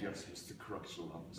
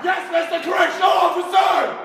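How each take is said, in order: First: It is said quietly. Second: It is said very loudly, shouted.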